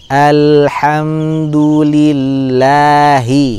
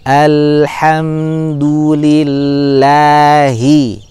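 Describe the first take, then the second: The two takes are said the same way.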